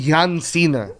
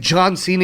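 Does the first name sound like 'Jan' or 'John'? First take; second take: Jan; John. First: The first name has an 'a' vowel, 'Jan'. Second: The first name has the usual 'John' vowel. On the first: The speaker calls it wrong. "He always called him Jan Cena" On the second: The speaker calls it right. "He could never say John Cena"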